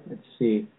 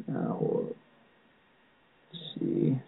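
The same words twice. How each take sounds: First: Said in the usual way. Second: Very slow, unvoiced mumble; muttering to self. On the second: Real, not acted. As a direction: mumble it to yourself while searching. Muttering while searching for names.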